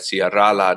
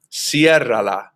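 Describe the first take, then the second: First: "cierra la" with the stress shifted onto the final A of "cierra"; wrong stress on A. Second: "cierra la" as one word, stress on the E of "cierra". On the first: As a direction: misplace the stress in "cierra la", landing on "rra". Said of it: "pronounced with the stress on the second to last syllable". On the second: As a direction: model "cierra la" slowly, stressed on the E. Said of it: "accent mark is put on the E to preserve that pronunciation". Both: Shown as a demonstration.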